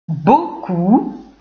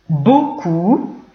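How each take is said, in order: The two takes are said the same way.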